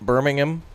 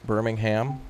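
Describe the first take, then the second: First: It is said with a British pronunciation. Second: It is said with an American pronunciation. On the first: This is how the listeners say it. "you guys say" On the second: This is how the speaker's own group says it. "we say"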